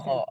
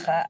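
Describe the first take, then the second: First: The letter is said heavy, with a rounded o. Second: The letter is said thin, with an open a. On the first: The speaker calls it right. "huruf-huruf yang tebal" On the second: The speaker calls it wrong. "bukan kha"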